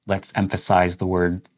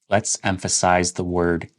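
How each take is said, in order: No difference in how they are said.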